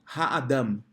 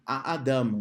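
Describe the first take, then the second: First: The word begins with a soft breathy h sound. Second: The word begins directly with a vowel, no h.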